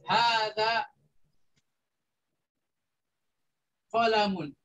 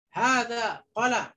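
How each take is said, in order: First: The last word ends with an added 'un' sound. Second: The last word ends on a bare consonant. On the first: The speaker calls it right. "memakai tanwin" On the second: The speaker calls it wrong. "Tidak boleh"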